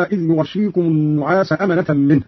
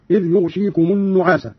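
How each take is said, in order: First: Said in the usual way. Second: يغشيكم said yughshīkum; light shīn reading. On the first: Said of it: "بإسكان الغين وكسر الشين مخففة". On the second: Shown as a demonstration. Teacher demonstrating Qalun's reading, يغشيكم as yughshīkum. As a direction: vowelless gh and single sh in يغشيكم. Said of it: "بإسكان الغين وكسر الشين مخففة هكذا".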